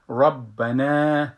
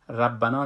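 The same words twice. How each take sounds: First: The r is full and heavy. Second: The r is light and thin. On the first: The speaker calls it right. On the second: The speaker calls it wrong.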